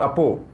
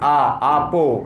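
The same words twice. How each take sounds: First: The first vowel is short. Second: The first vowel is long. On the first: The speaker calls it wrong. "not apo" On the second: The speaker calls it right. "it's a, apo"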